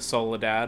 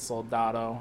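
First: The word is said like Soledad. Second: The word is said like Soldado. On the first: The speaker calls it wrong. "I know I just said it wrong" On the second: The speaker calls it right. "but it's Soldado, I believe"

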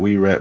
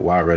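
First: The name is said with a French pronunciation. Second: The name is said with an English pronunciation. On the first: "A French person will pronounce it" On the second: "but Wyrette is okay"

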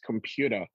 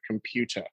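First: The word has a slight German accent. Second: The word has a plain English accent. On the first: "he gives him a little touch of German" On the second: "instead of"

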